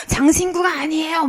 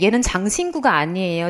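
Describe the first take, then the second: First: Higher-pitched self-mimicry of nagging; mock teacher nagging. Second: Said in the usual way. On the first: Teacher warning students she will keep repeating it, mock nagging. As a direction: exaggerate a teacher's repeated reminder. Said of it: "막 이럴 거".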